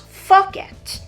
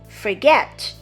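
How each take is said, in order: First: The stress is on the first syllable. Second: The stress is on the second syllable. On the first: The speaker calls it wrong. "not the first one" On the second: The speaker calls it right. "The stress is on the second syllable"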